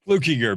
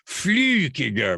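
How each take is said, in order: First: The first vowel is a plain English u sound. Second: The first vowel is a fronted German ü sound. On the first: This is how the name is said now. "but it's" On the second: This is the older Swiss German form of the name. "it used to have German Swiss, and it used to have the dots over the U, and it was Flukiger"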